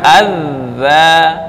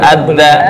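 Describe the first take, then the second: First: The middle consonant has no d sound in it. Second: The middle consonant is mixed with a d sound. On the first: The speaker calls it right. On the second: The speaker calls it wrong.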